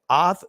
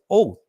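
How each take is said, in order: First: The vowel is an open 'ah' sound. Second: The vowel is a rounded 'oh' sound. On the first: The speaker calls it right. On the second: The speaker calls it wrong.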